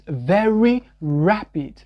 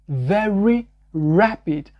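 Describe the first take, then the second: The two takes are said the same way.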